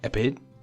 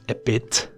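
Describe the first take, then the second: First: The final T is barely pronounced. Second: The final T is clearly released. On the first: "how is she pronouncing a bit ... they don't emphasize T" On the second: "not a bit"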